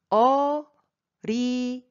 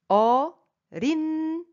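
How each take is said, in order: First: "어린이" as o, ri, ni, n carried onto the last syllable; with liaison. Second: "어린이" as o, rin, i, without liaison; pronounced as written. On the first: Teacher shows the correct pronunciation, with liaison. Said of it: "avec la liaison". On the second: Teacher tries the word as it is written, no liaison. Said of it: "si jamais j'essaye de prononcer comme c'est écrit". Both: Shown as a demonstration.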